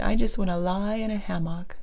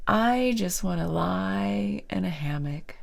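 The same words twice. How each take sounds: First: Said in the usual way. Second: Whispered quote. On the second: Retold or imitated. Quoting the dreamy client.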